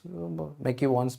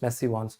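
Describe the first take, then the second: First: The name begins with a 'mac' sound. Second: The name begins with a 'messy' sound. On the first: "its spelling is McEwan's" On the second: "Some professors pronounce it as messy one"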